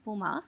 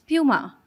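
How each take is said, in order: First: The word is said with a German pronunciation. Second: The word is said with an American pronunciation. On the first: This is how it is said in Germany. "the German pronunciation is Puma" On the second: This is how it is said in the US market. "they pronounce it as Puma"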